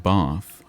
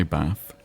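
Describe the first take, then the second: First: "Bath" with a long, open RP "ah"; RP pronunciation. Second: "Bath" with a short northern "a"; northern pronunciation. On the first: Showing what they don't say, "Bath" with RP long "ah". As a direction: say "Bath" the southern way, as "bahth". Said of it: "'cause I don't say". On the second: Correcting the RP description, "Bath" with northern short "a". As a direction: say "Bath" with the short vowel of "cat". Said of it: "I say Bath". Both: Shown as a demonstration.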